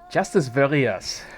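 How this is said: It is said with a put-on German accent. "try it with a German accent"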